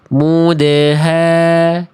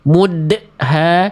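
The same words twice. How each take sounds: First: The bounce on the d is smooth and relaxed. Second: The bounce on the d is abruptly cut off. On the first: The speaker calls it right. "tapi mudha" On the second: The speaker calls it wrong. "bukan dibaca mudha"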